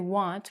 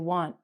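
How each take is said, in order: First: The final T is clearly pronounced. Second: The final T is not clearly pronounced. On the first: The speaker calls it wrong. "We don't say want" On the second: The speaker calls it right. "we don't say the T"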